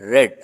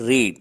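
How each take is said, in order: First: The vowel is short, like 'red'. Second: The vowel is long, like 'reed'. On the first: It is the past form. "రీడ్ అనేది రెడ్ రెడ్ అనే విధంగా దాని ప్రొనౌన్సియేషన్ని మార్చుకుంటుంది" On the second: It is the present base form. "దీన్నే ఏమంటా అంటే రీడ్"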